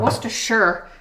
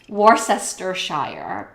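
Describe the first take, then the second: First: The middle 'cess' syllable is left out entirely. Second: The middle 'cess' syllable is pronounced aloud. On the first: The speaker calls it right. "you just pretend that cess part isn't there" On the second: The speaker calls it wrong. "if you don't know how to pronounce it, you might think it's Worcestershire"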